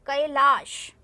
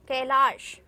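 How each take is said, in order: Both takes have the same delivery.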